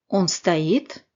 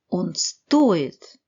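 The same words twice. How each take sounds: First: The ending is said fully, not reduced. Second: The ending is reduced as much as possible.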